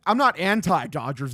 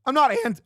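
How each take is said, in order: First: Said in the usual way. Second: Voice crack. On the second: Real, not acted. Streamer answering chat about the Dodgers, accidental voice crack. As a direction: voice cracks high mid-word. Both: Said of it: "That was a bad fucking voice crack".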